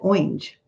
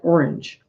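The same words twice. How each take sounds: First: Orange is said with an unusual regional pronunciation. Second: Orange is said with the common everyday pronunciation. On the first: The speaker calls it wrong. "She said orange" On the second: The speaker calls it right. "she never said orange"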